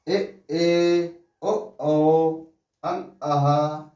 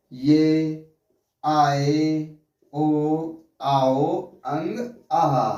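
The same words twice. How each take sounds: First: "ए" as a pure vowel without y glide; "औ" as one held vowel, "अं" nasal, "आहा" as a-ha; correct vowel pronunciation. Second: "आओ" as aa-o, "अंग" with a g; common misreading. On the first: Teacher reads the row properly, correct pronunciation. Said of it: "हम लोग कैसे करते हैं". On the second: Teacher shows how people read vowels, common misreading. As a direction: say "ये" with a y glide and "आए" as two vowels. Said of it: "हम लोग इस तरह से पढ़ते हैं". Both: Shown as a demonstration.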